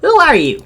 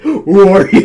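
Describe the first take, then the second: First: It is said in Angelica's bratty girl voice. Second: It is said in a very deep voice.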